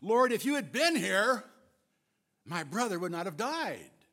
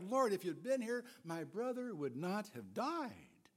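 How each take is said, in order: First: It is said in a harsh, accusing tone. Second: It is said in a sad, regretful tone. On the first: She blames him for not coming. "They could have been harsh and accusatory" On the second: She simply grieves and regrets his absence. "Or they could have been filled with sorrow and simple regret"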